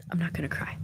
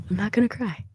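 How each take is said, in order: First: Soft whispered sigh, fighting tears; holding back tears. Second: Said in the usual way. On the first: Real, not acted. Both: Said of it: "I see the tears welling up".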